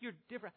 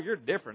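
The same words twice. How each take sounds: First: It is said warmly and admiringly. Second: It is said with weary exasperation. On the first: The person is wonderfully unique. "When you first met your spouse" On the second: The person is annoyingly strange. "Can you pick the tone?"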